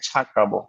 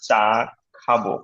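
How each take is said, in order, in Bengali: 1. প্রথম ব্যঞ্জনটি মহাপ্রাণ। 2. প্রথম ব্যঞ্জনটি অল্পপ্রাণ। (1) "বলতাম যে ভাই ছা খাবো" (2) "হওয়ার কথা চা খাবো"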